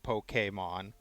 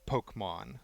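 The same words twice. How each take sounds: First: The middle E is sounded as a vowel. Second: The middle E is silent, like poke. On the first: The speaker calls it right. "the A needs to be pronounced" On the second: The speaker calls it wrong. "not Pokemon"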